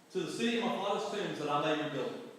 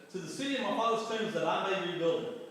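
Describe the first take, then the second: Both takes have the same delivery.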